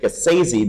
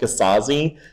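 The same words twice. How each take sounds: First: The middle syllable rhymes with crazy. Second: The middle syllable does not rhyme with crazy. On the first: The speaker calls it right. "he wanted to rhyme it with crazy" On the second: The speaker calls it wrong. "I have been mispronouncing his name for so long because I've called it Gasazi"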